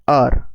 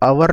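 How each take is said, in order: First: It is said as one short syllable, like 'ar'. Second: It is said with two syllables, like 'ow-er'. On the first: The speaker calls it right. "आवर का pronunciation होता है क्या? अर।" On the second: The speaker calls it wrong. "आवर का pronunciation आवर नहीं होता है"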